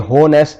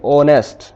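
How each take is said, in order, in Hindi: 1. यह शब्द 'h' की ध्वनि से शुरू होता है। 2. यह शब्द स्वर की ध्वनि से शुरू होता है। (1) "ये होनेस्ट नहीं है" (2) "इसे हम पढ़ेंगे ऑनेस्ट। यहां पे एच साइलेंट है।"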